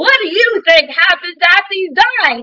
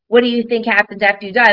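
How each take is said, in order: First: It is spoken loudly, in a projected, theatrical way. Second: It is spoken at a normal, conversational volume.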